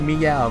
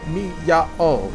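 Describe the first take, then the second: First: The vowels glide together into one syllable. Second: Each vowel is spoken as its own syllable. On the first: The speaker calls it wrong. "so you can just say meow" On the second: The speaker calls it right. "you're supposed to pronounce them like mi-ya-o"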